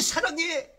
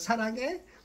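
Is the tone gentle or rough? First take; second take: rough; gentle. First: It is said in a rough, harsh tone. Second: It is said in a gentle, affectionate tone. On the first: The words sound threatening but can truly be love. "거칠게" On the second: The words sound loving but hide a harmful intent. "쓰다듬으면서"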